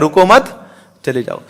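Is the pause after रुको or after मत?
after मत. The pause comes right after मत.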